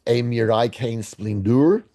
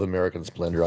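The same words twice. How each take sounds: First: "A Mirai Kane Splendor" drawn out syllable by syllable, as if foreign; mangled film title. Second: Said in the usual way. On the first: Shown as a demonstration. Reading out a guess, "A Mirai Kane Splendor" slowly mispronounced.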